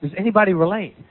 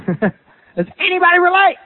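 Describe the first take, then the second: First: Said in the usual way. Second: Asked again through a laugh, pitched higher; amused, higher repeat to the congregation; laughing question. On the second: Shown as a demonstration. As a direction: chuckle as you ask the room.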